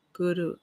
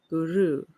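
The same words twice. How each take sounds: First: "Guru" with the first syllable as in good. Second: "Guru" with the second syllable rhyming with true; ru rhymes with true. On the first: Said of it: "pronounced as in the word good". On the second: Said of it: "rhymes with the word true". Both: Shown as a demonstration.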